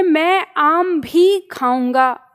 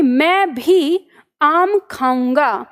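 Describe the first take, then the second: First: Very slow, weight on "आम भी"; teacher's slow example, "आम भी" picked out; stress on आम भी. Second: Very slow, weight on "मैं भी"; teacher's slow example, "मैं भी" drawn out; stress on मैं भी. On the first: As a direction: lean on "आम भी", stretching it out. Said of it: "आम पे". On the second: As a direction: set "मैं भी" apart and lean on it. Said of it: "म पे". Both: Shown as a demonstration.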